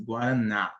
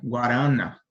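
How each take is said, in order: First: "Guaraná" stressed on the last syllable NÁ; stress on final NÁ. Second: "Guarana" stressed on the middle syllable RA, louder; stress shifted to RA. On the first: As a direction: land the emphasis of "Guaraná" on NÁ. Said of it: "é onde você dá mais ênfase". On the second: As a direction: wrongly stress "Guarana" as gua-RA-na. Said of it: "Se a gente mudasse a sílaba tônica". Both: Shown as a demonstration.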